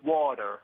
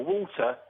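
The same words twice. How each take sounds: First: The middle consonant sounds like a soft D. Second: The middle consonant is a clear T sound. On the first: The speaker calls it wrong. "replace the T with a D" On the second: The speaker calls it right. "replace the T with a D"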